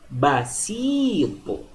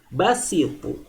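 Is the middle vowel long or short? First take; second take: long; short. First: The vowel after s is long. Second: The vowel after s is short. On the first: "Ini dibaca panjang" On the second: "Bedakan dengan basitu"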